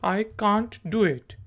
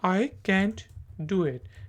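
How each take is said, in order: First: Can't has a long, open 'ah' vowel. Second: Can't has a flat, front 'a' vowel. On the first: "British English में कांट कहा जाता है" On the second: "American English में हम can not की short form को कैंट कहते हैं"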